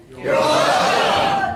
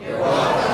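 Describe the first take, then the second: First: Loud, drawn-out crowd-style response; big, slow, shouted courtesy; loud rehearsed reply. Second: Said in the usual way. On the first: Shown as a demonstration. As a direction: belt it out slowly to a legend. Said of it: "That's how you say it". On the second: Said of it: "No, not like that".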